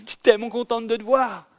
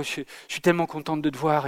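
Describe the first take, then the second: First: High, eager rush of happiness after running; imitating a singer's excited reunion line; breathless joy. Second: Imitating a joyless "tellement contente", said dully and softly; mimicking a singer who sounds unmoved; mock flat joy. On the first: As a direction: burst out with delight at seeing him. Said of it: "en lui disant, Tamino". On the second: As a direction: say you're thrilled with no joy at all. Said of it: "cache ta joie".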